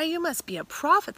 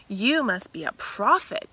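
First: Higher, louder rising awe; the woman realizing Jesus is a prophet, higher amazed voice; amazed realization. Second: Said in the usual way. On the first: Acted.

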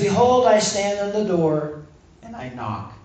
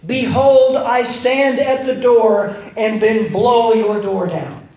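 First: Gentle invitation. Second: Loud, higher, drawn-out proclamation; mock booming command. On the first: Acted. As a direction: offer it gently, quieting right down at the end. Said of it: "He says". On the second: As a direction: blast it out like a forceful entrance. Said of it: "Jesus does not say in Revelation".

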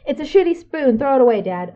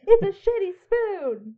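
First: High, loud, exasperated outburst; Billy Eichner rant. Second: Laughing rerun. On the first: Friend at home demanding Dad toss the spoon, shrieking rant. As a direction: yell it like a fed-up comic ranting. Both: Acted. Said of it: "That was very Billy Eichner of you".

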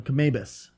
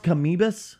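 First: "Kamabus" with an "ay" in the middle, ka-MAY-bus; alternative pronunciation. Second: "Kamibus" with an "ee" in the middle, ka-MEE-bus; pronunciation option. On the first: Podcaster offering the other pronunciation, "Kamabus" said ka-MAY-bus. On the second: Podcaster checking how it is pronounced, "Kamibus" said ka-MEE-bus. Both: Shown as a demonstration. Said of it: "is it pronounced Kamibus or Kamabus".

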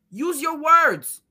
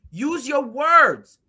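First: Very slow, word by word; slow, higher scolding. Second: Even slower, louder; slow, loud, higher scolding. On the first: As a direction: spell it out like to a child. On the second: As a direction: drag each word out. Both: Retold or imitated. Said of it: "I'm in the middle like".

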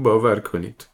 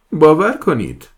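First: A touch louder, begging "باور کنید"; distraught pleading. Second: Very loud, high cry of "باور کنید"; desperate shout. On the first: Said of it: "با پریشونی به التماس افتاد". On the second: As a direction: scream "باور کنید" at the captain. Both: Acted.

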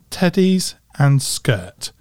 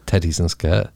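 First: Slow Cornish "teddies and skirt"; Cornish accent. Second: "teddies and skirt" in a Scottish accent. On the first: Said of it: "think of the Cornish accent". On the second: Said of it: "that sounds Scottish to me". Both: Shown as a demonstration.

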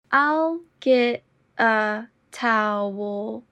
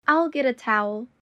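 First: Very slow and deliberate. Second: Said in the usual way. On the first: Shown as a demonstration. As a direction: stretch each word out. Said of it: "repetition drill, slowed take". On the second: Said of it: "repetition drill, normal take".

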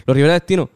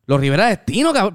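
First: Said in the usual way. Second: Imitating a stunned double take; retold amazement. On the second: Stranger recognises the band he just heard about, amazed. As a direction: echo the name back as an incredulous question. Stranger reacts to the band's name.

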